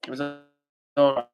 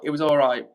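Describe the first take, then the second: First: A hesitant, grudging "all... right"; drawn-out pause. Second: Said in the usual way. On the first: Shown as a demonstration.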